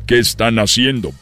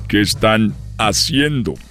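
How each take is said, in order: First: It is said in a high child's voice. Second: It is said in his normal adult voice.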